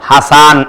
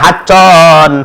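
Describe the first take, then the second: First: The middle consonant is a plain s sound. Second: The middle consonant is a doubled ch sound. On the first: The speaker calls it right. "নাম হচ্ছে হাসান" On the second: The speaker calls it wrong. "নামটা পর্যন্ত সঠিকভাবে উচ্চারণ করে না, বলে হায় হাচ্চন"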